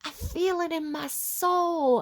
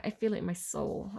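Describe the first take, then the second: First: High, slow imitation of an American blues accent; old blues accent. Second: Said in the usual way. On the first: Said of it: "that kind of old blues accent".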